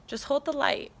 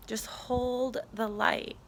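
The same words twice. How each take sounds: First: Said in the usual way. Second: Slow, emphatic repeat. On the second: Retold or imitated. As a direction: HOLD stretched out slowly. Same message repeated, drawn out.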